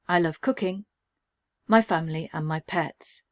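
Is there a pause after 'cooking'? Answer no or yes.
yes. There is a pause after cooking.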